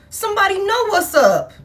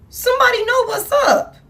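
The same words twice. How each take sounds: First: Said in the usual way. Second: "Somebody know what's up" pushed higher, every word leaned on; emphatic repeat. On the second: Real, not acted. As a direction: hammer the line home higher. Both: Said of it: "Heavy emphasis on that".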